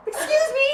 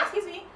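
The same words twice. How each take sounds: First: Very high, startled protest; indignant objection. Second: Small, high, soft protest; timid objection. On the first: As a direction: protest in shock at an intruder. Acting stronger objection as door opens. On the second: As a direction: pipe up quietly at an intruder. Acting first objection to intruder. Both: Retold or imitated.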